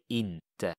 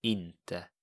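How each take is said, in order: First: Inte, IN-te with a nasal i; Swedish word. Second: Inte repeated, soft and falling; Swedish word. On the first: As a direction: say inte, stress on the first syllable. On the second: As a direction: say inte once more, quieter. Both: Shown as a demonstration. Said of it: "you would say".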